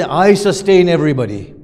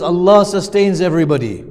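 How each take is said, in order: First: Loud, emphatic "I" as the rejected wording; "I" punched and held up for contrast; stress on "I". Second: "Allah" punched high and loud; raised, emphatic "Allah" that corrects the wording; stress on "Allah". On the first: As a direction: hit "I" hard, as the word being ruled out. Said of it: "It doesn't say". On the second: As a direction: drive home "Allah" as the true wording. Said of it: "It says". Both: Shown as a demonstration.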